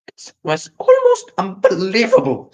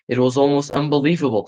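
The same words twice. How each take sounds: First: It is read in a put-on Squealer voice. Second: It is read in the narrator's own voice.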